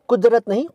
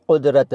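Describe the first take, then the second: First: कुदरत with a plain k, shown as the wrong way; teacher voices the mistaken कुदरत, higher and marked off. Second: Teacher gives the correct कुदरत from the back of the throat; nuqta qaf. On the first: To Urdu learners, the mistaken plain-k कुदरत. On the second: To Urdu learners, the correct qaf in कुदरत. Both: Shown as a demonstration. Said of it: "क के नीचे नुक्ता".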